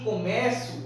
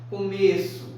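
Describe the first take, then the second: First: The stressed vowel is open. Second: The stressed vowel is closed. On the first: It is the verb meaning I begin. "é um é mais aberto" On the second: It is the noun meaning the beginning. "o é é falado de uma forma mais fechada"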